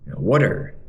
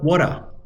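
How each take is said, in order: First: It is spoken in an American accent. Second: It is spoken in an Australian accent. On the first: "Orang Amerika bilang water" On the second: "Orang Australia bilang water"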